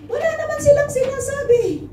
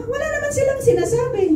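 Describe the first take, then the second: First: Much higher, mocking sing-song; mock indignation. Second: Much higher and fast, rattling off "silang"; fast mocking repeat. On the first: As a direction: toss the line up high in mock disbelief, leaning on "silang". Mocking what drinkers are told. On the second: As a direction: rush the mocking line out high. Repeats mocking line faster.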